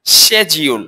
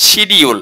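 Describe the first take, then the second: First: "শিডিউল" as SHE-jiul, d softened to j; correct pronunciation. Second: "শিডিউল" as shi-di-ul, with a d; common mispronunciation. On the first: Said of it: "এটা হচ্ছে". (শুদ্ধ উচ্চারণে "শিডিউল", শেজিউল) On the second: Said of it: "এটা ভুল". (ভুল উচ্চারণে "শিডিউল") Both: Shown as a demonstration.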